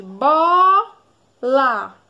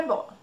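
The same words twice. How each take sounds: First: "Bola" with a long, loud BO, then LA; "Bola" slowly split, BO much stronger; stressed first syllable. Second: Said in the usual way. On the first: Shown as a demonstration. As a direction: stretch the BO in "Bola" right out. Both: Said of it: "Qual é a sílaba mais forte".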